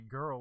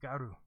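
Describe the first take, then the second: First: It is said with a plain English accent. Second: It is said with a Japanese-style accent. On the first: "it wouldn't be girl" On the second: "it'd be garu"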